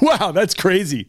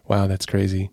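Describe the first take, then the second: First: It sounds amused and lighthearted. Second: It sounds sad and sympathetic.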